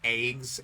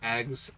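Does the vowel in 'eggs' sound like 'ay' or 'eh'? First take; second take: ay; eh. First: The vowel is a long 'ay' sound. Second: The vowel is a short 'eh' sound.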